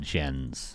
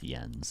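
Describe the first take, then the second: First: It begins with a hard J sound. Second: It begins with a soft Y sound. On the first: The speaker calls it wrong. "is not" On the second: The speaker calls it right.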